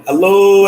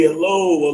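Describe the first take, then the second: First: Big opening hello to the viewers; loud greeting. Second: Said in the usual way. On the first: Real, not acted. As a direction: call out hello loud and high to the stream.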